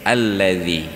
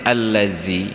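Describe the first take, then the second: First: The middle consonant is a soft, non-hissing th-sound. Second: The middle consonant is a hissing z-sound. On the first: The speaker calls it right. "Yang tidak boleh berdesis" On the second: The speaker calls it wrong. "kalau berdesis allazi, itu bukan zal"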